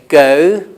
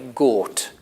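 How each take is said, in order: First: The vowel glides, as a diphthong. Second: The vowel is one steady sound. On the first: "I say go, oat" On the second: "Some people from Northern England would say gort"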